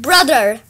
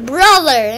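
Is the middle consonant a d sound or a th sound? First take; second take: d; th. First: The middle consonant is a hard d sound. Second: The middle consonant is a soft th sound. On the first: The speaker calls it wrong. "Not with a D" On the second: The speaker calls it right. "with a T and H. TH"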